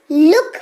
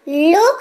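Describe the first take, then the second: First: "लुक" with a short oo as in put; correct short u. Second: "लोग" said as "loke", long pure o; wrong long o. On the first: Teacher giving the proper reading, "लुक" with short u. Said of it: "पढ़ रहे हैं इसको". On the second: Teacher mocking up a misreading, "लोग" with long o. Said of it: "तो नहीं पढ़ते इसको". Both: Shown as a demonstration.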